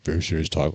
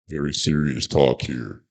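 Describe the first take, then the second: First: It is said in his normal voice. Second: It is said in a put-on serious voice.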